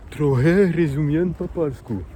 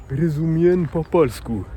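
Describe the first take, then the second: First: Said in the usual way. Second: "rozumiem po polsku" spoken slowly, each syllable placed; slowed-down demo of "rozumiem po polsku"; slow careful Polish. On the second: Shown as a demonstration. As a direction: spell out "rozumiem po polsku" for a learner. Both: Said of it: "tu vas dire".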